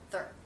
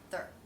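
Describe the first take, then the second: First: The word is said quickly in reduced form. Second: The word is said quickly in reduced form.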